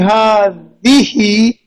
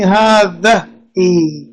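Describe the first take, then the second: First: The vowel after the d sound is i. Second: The vowel after the d sound is a. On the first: The speaker calls it right. "You want to say ha dihi" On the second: The speaker calls it wrong. "you're saying ha dahi. No"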